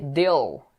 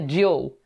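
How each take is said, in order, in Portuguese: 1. O L final é escuro, quase como um O. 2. O L final é claro e nítido. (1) "Tem esse dark, esse dark L no final, com O" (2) "não é deal"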